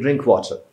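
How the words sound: It is said in a soft, polite tone. It is a request.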